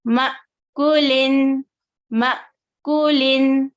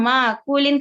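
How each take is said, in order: First: मअकुलिन slow, with a stop after म; brief halt inside मअकुलिन; correct hamza catch. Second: मअकुलिन said smoothly, at speech pace; wrong reading. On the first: Teacher shows students the right reading, slowly. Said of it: "कैसे पढ़ेंगे इसे". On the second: Teacher names the reading students should avoid. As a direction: run मअकुलिन together. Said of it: "करके नहीं पढ़ेंगे". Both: Shown as a demonstration.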